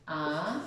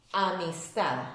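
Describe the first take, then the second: First: "amistad" in separate syllables, lower and softer, long pauses. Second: Said in the usual way. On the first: Shown as a demonstration. Teacher separating the word for pupils, "amistad" syllable by syllable. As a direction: break "amistad" into a, mis, tad, pausing between. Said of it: "Si yo lo separo en sílabas". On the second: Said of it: "Tengo aquí la palabra amistad".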